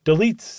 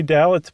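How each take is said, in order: First: "Deletes" said like duh-LEETS; pronounced Deletes. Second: "Dalits" said like DAL-its; mistaken pronunciation Dalits. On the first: Host answers co-host on the mobster's surname, "Deletes" as duh-LEETS. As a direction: say "Deletes" with a long ee in the stressed second syllable. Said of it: "That's what I saw". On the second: Host admits the tempting misreading of the surname, "Dalits" as DAL-its. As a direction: say "Dalits" with a short final i, not an ee. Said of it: "but it's not Dalits". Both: Shown as a demonstration.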